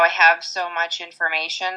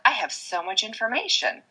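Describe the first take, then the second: First: It sounds weary and overwhelmed. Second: It sounds bright and grateful. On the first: Having so much is a burden. The speaker calls it wrong. "Instead of saying, oh, I have so much information like that" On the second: Having so much is a blessing. The speaker calls it right. "So that shifts the energy into a higher plane"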